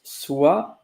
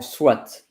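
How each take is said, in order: First: The word ends without a t sound. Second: The word ends with an audible t sound. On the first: "it could be pronounced swa" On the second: "or swat"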